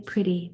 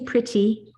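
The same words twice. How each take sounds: First: The middle T sounds like a quick D. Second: The middle T is a crisp, released T. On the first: This is the usual everyday way here. "we usually just say pretty. That T is turning into ... a D sounding" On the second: This is how it sounds in England. "We don't say pretty"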